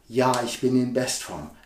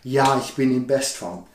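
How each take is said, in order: First: The sentence sounds only mildly assertive. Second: The sentence sounds very assertive.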